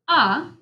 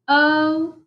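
First: The vowel is a short sound. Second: The vowel is a long sound. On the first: "Let's do the short vowel sounds first" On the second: "our vowels can also make a long sound"

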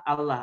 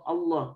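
First: The L is light and thin. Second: The L is heavy and full-mouthed. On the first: The speaker calls it wrong. "Kalau misalkan baca Allah, Allah itu salah" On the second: The speaker calls it right. "ini makanya harus dibaca Allah"

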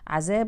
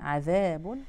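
First: The middle consonant is a z sound. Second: The middle consonant is a th sound. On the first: The speaker calls it wrong. "تحويل الذال إلى زاي هذا خطأ" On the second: The speaker calls it right. "فننتبه نقولها عذاب"

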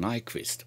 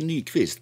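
First: The name is said with an English pronunciation. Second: The name is said with a Swedish pronunciation. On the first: The speaker calls it wrong. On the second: The speaker calls it right.

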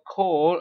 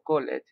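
First: The word has one syllable, no extra ending. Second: The word has an extra second syllable. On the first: The speaker calls it right. "digo call, I pronounce call" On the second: The speaker calls it wrong. "no digo call it"

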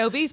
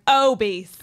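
First: The first syllable is not leaned on. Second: The first syllable is leaned on heavily. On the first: "I would say obese" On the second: "the way you say it is like obese"

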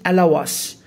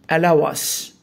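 No difference in how they are said.

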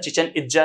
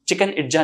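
First: The first word is said like 'chichen'. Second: The first word is said like 'chicken'. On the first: The speaker calls it right. "चिचेन Itza है वो" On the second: The speaker calls it wrong. "चिकन Itza नहीं करना"

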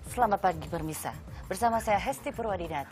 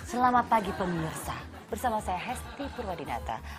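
First: The words are articulated unclearly. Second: The words are articulated clearly.

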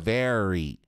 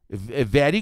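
First: The r sounds like a countryside caipira r. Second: The r sounds like a typical Portuguese r. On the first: The English r is the caipira r. The speaker calls it right. "o R em inglês é o R do caipira" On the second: English read with Portuguese sounds. The speaker calls it wrong. "é muito comum você ver as falando assim"

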